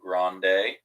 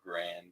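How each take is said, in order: First: The word ends with a pronounced final vowel. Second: The word ends without a final vowel, drawled.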